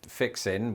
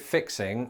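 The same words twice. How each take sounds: First: The final g sound is dropped. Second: The final g sound is pronounced.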